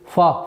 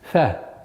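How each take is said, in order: First: The 'fa' sound is hard. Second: The 'fa' sound is soft. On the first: The speaker calls it wrong. "Нельзя его произносить фа" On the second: The speaker calls it right. "Фа мягкий звук"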